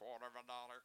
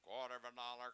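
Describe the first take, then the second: The two takes are said the same way.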